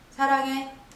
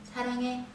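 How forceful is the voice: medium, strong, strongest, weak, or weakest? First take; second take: weak; weakest. First: It is said softly with slightly more force. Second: It is said very softly and weakly. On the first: "한 단계 올라볼까요?" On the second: "일 단계를 제일 약하다고 생각하고요"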